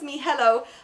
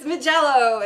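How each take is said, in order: First: The middle consonant is a soft H sound. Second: The middle consonant is a J sound. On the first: The speaker calls it wrong. "Amy likes to pronounce this Mihello" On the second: The speaker calls it right. "but it's Magello"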